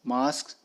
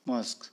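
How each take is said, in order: First: मास्क with a long open aa; British broad aa in मास्क. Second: मस्क with a short a; American short vowel in मस्क. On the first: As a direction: draw out the aa in मास्क. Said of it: "आ का use किया जाता है". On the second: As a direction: clip मस्क short and soft. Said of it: "American English में अ". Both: Shown as a demonstration.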